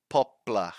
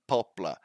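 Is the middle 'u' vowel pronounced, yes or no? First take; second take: no; no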